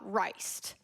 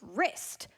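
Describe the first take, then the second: First: The vowel is a long 'eye' sound. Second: The vowel is a short 'ih' sound. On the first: The speaker calls it wrong. "not riced" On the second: The speaker calls it right. "it's wrist"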